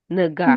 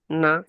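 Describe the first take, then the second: First: A hard g sound follows the n. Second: No hard g sound, made back in the throat. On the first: The speaker calls it wrong. "Вы как нга говорите?" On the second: The speaker calls it right. "Без Г"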